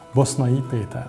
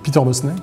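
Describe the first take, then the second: First: The name is said with Hungarian pronunciation. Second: The name is said with French pronunciation. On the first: "à la hongroise" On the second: "à la française"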